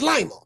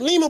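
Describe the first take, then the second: First: The name is said the American way. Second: The name is said the non-American way. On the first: This is how people in America say the name. "in America, L I M A is Lima" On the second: This is how people elsewhere say the name. "I guess they pronounce it Lima"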